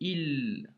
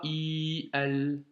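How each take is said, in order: First: A short vowel runs straight into the l. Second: A long vowel is followed by a separate syllable. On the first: The speaker calls it right. "J'ai fait il directement" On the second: The speaker calls it wrong. "et pas i, al"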